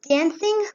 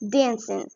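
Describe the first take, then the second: First: The word ends with a clear g sound. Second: The word ends without a g sound. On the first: "instead of saying" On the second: "Don't pronounce the G in the end"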